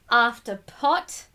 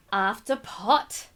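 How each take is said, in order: Both takes have the same delivery.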